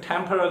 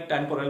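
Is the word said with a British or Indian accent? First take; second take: British; Indian. First: It is said with a British accent. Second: It is said with an Indian accent.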